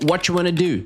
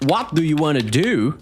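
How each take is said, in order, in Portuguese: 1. Dita rápido, os sons se juntam numa palavra só. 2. Cada palavra é dita com clareza e separadamente.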